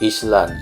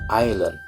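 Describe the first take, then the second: First: The S sound is pronounced in the middle. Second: The S sound is silent in the middle. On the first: The speaker calls it wrong. "S-nya tidak disebutkan, tidak menjadi island" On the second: The speaker calls it right. "tapi island"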